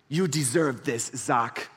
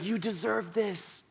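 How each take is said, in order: First: Slow, mock-smooth sales pitch; lightly voiced salesman buttering up a customer; phone sales rep. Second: Slow, much softer mock-coaxing pitch; soft sales rep. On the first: Sales rep on the phone flattering Zach, mock smooth pitch. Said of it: "but he's like". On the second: Salesman repeating it over and over, soft mock coaxing. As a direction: coax it like a purring salesman. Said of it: "He's like".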